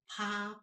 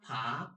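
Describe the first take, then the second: First: The pitch stays high and level. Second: The pitch rises from mid to high.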